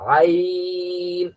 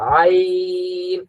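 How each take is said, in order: The two takes are said the same way.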